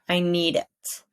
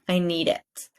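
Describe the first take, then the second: Both takes have the same delivery.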